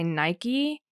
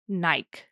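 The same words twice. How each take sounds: First: The word is said the American way. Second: The word is said the Australian way. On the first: "in the U S we say Nike" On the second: "I think in Australia they say Nike"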